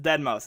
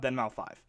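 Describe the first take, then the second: First: The name ends with the word mouse. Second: The name ends with the word five. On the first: The speaker calls it right. "it's [name]" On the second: The speaker calls it wrong. "it's not [name]"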